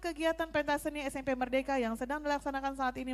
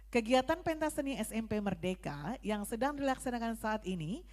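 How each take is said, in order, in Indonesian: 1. Dibaca dengan cepat tanpa jeda. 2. Dibaca dengan tempo yang lebih lambat dan terukur. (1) "itu terlalu cepat" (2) "Bagaimana yang pas"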